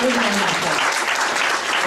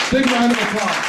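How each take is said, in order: First: "Big round of applause" stretched out slowly, each word lengthened; slow it right down and lean on every word; drawn-out repeat. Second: Loud and higher, rallying the room; calling for applause. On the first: Repeating the applause request to the crowd, slow and emphatic. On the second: Urging the audience to applaud standing veterans, loud rallying call. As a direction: pump the crowd up for the veterans. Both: Real, not acted.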